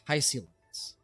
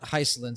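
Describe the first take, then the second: First: The 'si' syllable carries extra emphasis. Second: The 'si' syllable is not emphasized. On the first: The speaker calls it right. "with more emphasis on on the S I" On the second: The speaker calls it wrong. "it's not Hysolins"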